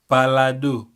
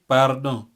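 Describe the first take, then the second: First: It has an l sound and three syllables. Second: It has an r sound and two syllables.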